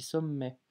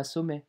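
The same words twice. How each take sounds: First: Sommet with the m held long; exaggerated double m. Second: Said in the usual way. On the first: Shown as a demonstration. Teacher exaggerating to show doubling. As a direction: overdo the mm in sommet. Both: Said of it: "j'abuse un petit peu sur la prononciation".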